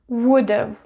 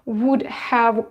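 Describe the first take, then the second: First: The word 'have' is reduced to 've. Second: The word 'have' is said in full. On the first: "you can pronounce it as would have" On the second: "instead of would have called"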